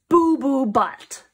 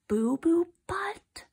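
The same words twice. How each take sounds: First: Loud, slow, every word punched; big drawn-out declaration; bold announcement. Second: Whispery, slow rising question; hushed, drawn-out double take; incredulous echo. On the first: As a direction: proclaim the silly name with gusto. Book's silly name announced boldly. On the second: Reader repeats name in disbelief. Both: Acted.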